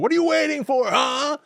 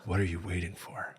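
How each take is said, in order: First: It is said loudly. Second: It is said quietly.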